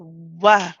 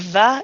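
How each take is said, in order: First: Rounded lips without teeth contact, giving w. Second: The lower lip touches the teeth, giving v. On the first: The speaker calls it right. "it's a wa" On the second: The speaker calls it wrong. "it's not a va"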